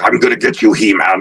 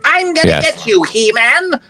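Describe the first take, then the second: First: The voice is low and deep. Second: The voice is high-pitched. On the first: The speaker calls it wrong. "if it was just so deep" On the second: The speaker calls it right. "It was the high pitched voice"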